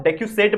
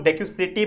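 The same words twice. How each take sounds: First: डेक्यूसेट ending on a closed "set"; pronunciation variant. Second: डेक्यूसेटी with an added final "ee"; alternative pronunciation. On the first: Teacher giving students one way to say the term, pronunciation variant. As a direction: say डेक्यूसेट as deck-yu-set, no final vowel. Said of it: "अलग-अलग pronunciation है". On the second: Teacher showing how some people say the term, alternative pronunciation. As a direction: say डेक्यूसेटी as deck-yu-set-ee. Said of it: "कुछ लोग डेक्यूसेटी बोलते हैं". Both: Shown as a demonstration.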